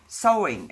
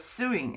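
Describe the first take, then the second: First: The first vowel sounds like 'so'. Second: The first vowel sounds like 'sue'. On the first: The speaker calls it right. "you pronounce sewing sewing" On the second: The speaker calls it wrong. "I thought it was suing"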